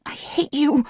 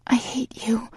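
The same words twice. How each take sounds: First: Sharp high snap of hatred; snapping. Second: Whispered, high and weak. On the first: Heroine snapping at her lover in anger. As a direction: spit it at him, high and cutting. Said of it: "I snap". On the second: Heroine weakly repeating the words to her lover, whispered. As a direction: parrot it back in a defeated whisper. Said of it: "I parrot weakly". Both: A narrator's reading.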